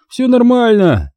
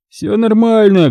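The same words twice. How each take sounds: First: High, slow laid-back voice; slow easygoing high drawl; lazy drawl. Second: Firm drawl. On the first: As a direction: drawl it, relaxed and stoned. Igor drawls calmly. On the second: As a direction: brush the question off. Igor repeats, firmer. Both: A narrator's reading.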